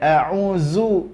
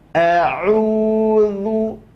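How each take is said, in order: First: The middle consonant is a buzzing 'z' sound. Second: The middle consonant is a 'th' sound between teeth. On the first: The speaker calls it wrong. "Jadi bukan a'uzu, enggak" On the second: The speaker calls it right. "lidah akan keluar dari batas giginya"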